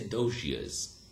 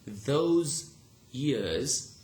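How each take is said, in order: First: Those ends in a zh sound. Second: Those ends in a plain z sound. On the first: "you would say" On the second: "instead of saying"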